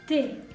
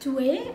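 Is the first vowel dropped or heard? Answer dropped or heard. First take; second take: dropped; heard. First: The first vowel drops, leaving one syllable. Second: Both vowels are pronounced as two separate syllables. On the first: "kita jadikan apostrof" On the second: "boleh kita baca tu es"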